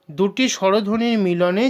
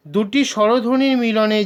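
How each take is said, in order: Both takes have the same delivery.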